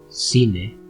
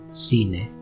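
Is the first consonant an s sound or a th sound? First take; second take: s sound; s sound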